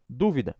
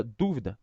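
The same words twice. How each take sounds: First: "dúvida" stressed on the first syllable, DÚ-vi-da. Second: "dúvida" said as the verb du-VI-da, no stress on the first syllable; stress on last syllable. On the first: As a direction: say "dúvida" with the weight on DÚ. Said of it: "sílaba tônica aqui no início". ("dúvida" com a tônica na primeira sílaba, DÚ-vi-da) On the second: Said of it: "sem acento ou sem sílaba tônica". ("dúvida" como verbo, tônica em VI, du-VI-da) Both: Shown as a demonstration.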